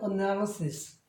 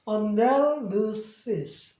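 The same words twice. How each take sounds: First: The word is said quickly and smoothly. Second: The word is said slowly and carefully. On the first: "빨리 하면" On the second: "전체적인 발음이"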